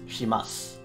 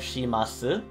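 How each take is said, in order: First: The final u vowel is dropped. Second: The final u vowel is clearly pronounced. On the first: "typically when you pronounce it, it's shimas. The, uh, the u sound gets dropped" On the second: "here we have shimasu"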